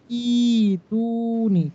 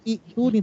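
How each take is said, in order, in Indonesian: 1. Vokal pertama dibaca panjang. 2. Hamzah mengikuti vokal pertama yang pendek. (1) "Maka bacanya jadi panjang" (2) "bukan itu nih"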